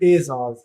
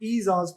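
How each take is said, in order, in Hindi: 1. पहला स्वर मध्य 'e' ध्वनि है। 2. पहला स्वर लंबा और साफ़ 'ee' है। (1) "इसमें ज़ेर मजहूल है, इसलिए इस लफ्ज को पढ़ते हैं एजाज" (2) "अगर इसमें ज़ेर मारूफ होती तो इसे ईजाज पढ़ते"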